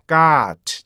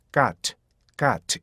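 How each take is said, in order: First: "got" with a long, loud held vowel; overlong, level "got"; wrongly lengthened. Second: "got" short, falling, released t; crisp falling "got"; correct short glide. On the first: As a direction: stretch the vowel of "got" far too long. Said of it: "절대 이렇게 읽으면". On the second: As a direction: say "got" compactly with a falling vowel. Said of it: "이렇게 읽어야지". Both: Shown as a demonstration.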